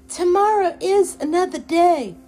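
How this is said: It is said in a theatrical put-on character voice. "that Scarlett O'Hara kind of motto"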